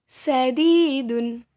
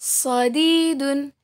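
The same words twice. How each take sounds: First: Sadidun slowly, starting with light "sa"; letter sin. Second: Sadidun slowly, starting with heavy "so"; letter sad. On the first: Teacher contrasts two letters for students, sadidun with light "sa". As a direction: say sadidun with thin S, open vowel. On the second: Teacher contrasts two letters for students, Sadidun with heavy "so". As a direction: say Sadidun as "sodiidun", emphatic S. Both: Shown as a demonstration. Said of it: "Perbandingan antara huruf so dan huruf sa".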